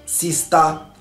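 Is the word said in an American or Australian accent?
Australian. It is said with an Australian accent. "Aqui é"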